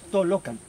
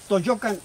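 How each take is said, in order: First: The middle consonant sounds like an L. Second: The middle consonant sounds like a Y. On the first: The speaker calls it right. "Es una L, son dos L" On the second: The speaker calls it wrong. "los locutores lo dicen, pero está mal dicho"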